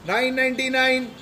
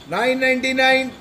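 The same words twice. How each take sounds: The two takes are said the same way.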